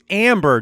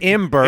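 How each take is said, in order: First: The first vowel sounds like 'a' in cat. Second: The first vowel sounds like 'e' in bed. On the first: The speaker calls it right. "It's amber" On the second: The speaker calls it wrong. "not ember"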